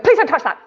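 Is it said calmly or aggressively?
aggressively. It is said quickly and aggressively.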